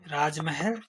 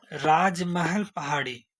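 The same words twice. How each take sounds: First: Said in the usual way. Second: Slow spelled-out name. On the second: Shown as a demonstration. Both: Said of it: "इसको कैसे याद रखें?".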